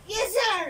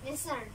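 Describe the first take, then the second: First: It is said loudly and firmly. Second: It is said softly and weakly.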